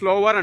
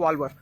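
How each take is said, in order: First: The word begins with an s sound. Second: The word begins without an s sound. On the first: The speaker calls it wrong. "Actual నేను స్లోవర్ అనుకున్నా" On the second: The speaker calls it right. "ఎస్ silent"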